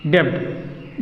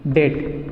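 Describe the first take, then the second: First: डेप्थ said wrongly with the B sounded, like "depth"; wrong pronunciation. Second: डेट said with a silent B, just "det"; correct pronunciation. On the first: Teacher showing students the wrong way to say डेप्थ. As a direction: voice the B in डेप्थ the way learners get it wrong. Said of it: "ये पूरा का पूरा गलत है". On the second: Teacher showing students the right way to say डेट. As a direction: drop the B and say डेट cleanly. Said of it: "ये बोलना है". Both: Shown as a demonstration.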